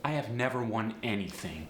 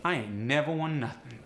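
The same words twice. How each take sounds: First: Said in the usual way. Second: AAVE, ain't never stressed; AAVE double negative. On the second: Shown as a demonstration. Teacher demoing AAVE negative. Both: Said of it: "just throw an ain't onto it".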